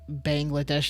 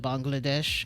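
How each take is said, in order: First: It is said with an American pronunciation. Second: It is said with a non-American pronunciation. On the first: The speaker calls it wrong. "I say it like Bangladesh ... no one would say it Bangladesh unless for you're American" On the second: The speaker calls it right. "instead of Bangladesh"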